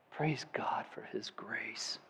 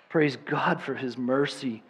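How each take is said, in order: First: Slow, breathless whispered praise. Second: Said in the usual way. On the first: Real, not acted. Preacher closing in reverent praise, whispered. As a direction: breathe it out in awe. Hushed praise ending the sermon.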